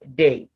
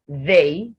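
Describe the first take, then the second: First: The word begins with a hard 'd' sound. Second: The word begins with a soft 'th' sound. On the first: The speaker calls it wrong. "that is saying the word the wrong way" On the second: The speaker calls it right. "Instead of saying they"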